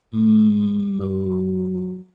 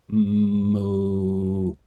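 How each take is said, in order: First: Long, high, loud moo; high cow moo. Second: Sung mock moo; cow moo. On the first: Acted. Streamer trying a higher moo. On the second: Streamer showing off cow sound to chat. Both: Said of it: "I can do a pretty good cow".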